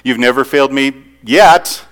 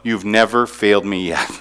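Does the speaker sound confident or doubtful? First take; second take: doubtful; confident. First: It sounds wary and doubtful. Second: It sounds settled and confident. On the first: Trust is still being tested. The speaker calls it wrong. "it could be like we're still checking this out a little bit" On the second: Looking back, there has never been a failure. The speaker calls it right. "this is how I say it and how I sing it"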